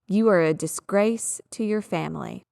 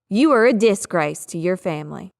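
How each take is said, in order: First: Disgrace is stressed on its second syllable. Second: Disgrace is stressed on its first syllable. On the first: The speaker calls it right. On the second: The speaker calls it wrong.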